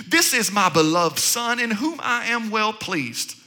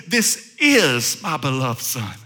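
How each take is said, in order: First: Said in the usual way. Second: Much lower, slow and solemn divine voice; voice of God from heaven. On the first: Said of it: "a voice came from heaven saying". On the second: Acted. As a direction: boom it out slowly like God speaking from heaven. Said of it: "He says".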